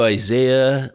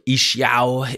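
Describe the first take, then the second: First: The name is said with English pronunciation. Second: The name is said with Hebrew pronunciation.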